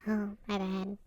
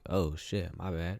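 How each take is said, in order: First: It is said in a socially awkward, unsure way. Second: It is said in a confident, relaxed way.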